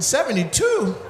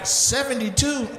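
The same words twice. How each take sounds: First: High, laughing question; repeating the age through a laugh; laughing disbelief. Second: Slow, high disbelieving question; repeating the age, stunned; stunned disbelief. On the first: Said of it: "disbelief again". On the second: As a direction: stretch it out in shock. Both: Real, not acted.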